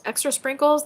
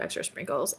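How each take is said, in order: First: Higher and brighter repeat; excited echo of a comment. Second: Said in the usual way. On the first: Real, not acted. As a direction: savour the words with delight.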